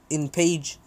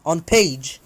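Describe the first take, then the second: First: Said in the usual way. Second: Louder self-correction, "on page"; stress on "on". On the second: Real, not acted. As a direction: correct yourself firmly with "on page". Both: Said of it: "not in".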